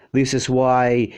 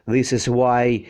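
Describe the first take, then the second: No difference in how they are said.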